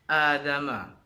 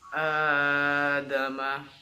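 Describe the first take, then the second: First: The opening vowel is cut too short. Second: The opening vowel is held far too long. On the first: "itu salah juga karena terlalu pendek" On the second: "itu kan kepanjangan melebihi dua harokat"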